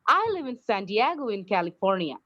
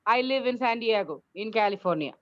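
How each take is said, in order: First: The voice stays up after San Diego. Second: The voice falls to a full stop after San Diego.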